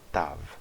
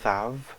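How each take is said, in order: First: It begins with a hard, closed t sound. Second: It begins with a soft, hissing th sound. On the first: "com o dagesh" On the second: "sem o dagesh"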